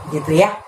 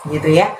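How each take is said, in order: The two takes are said the same way.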